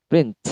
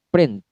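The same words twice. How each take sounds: Both takes have the same delivery.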